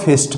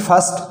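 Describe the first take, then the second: First: The vowel is a short 'i' sound. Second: The vowel is an 'ur' sound. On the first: The speaker calls it wrong. "ना ही इसको फिस्ट पढ़ेंगे" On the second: The speaker calls it right. "आई का उच्चारण ए"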